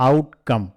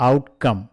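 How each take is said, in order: No difference in how they are said.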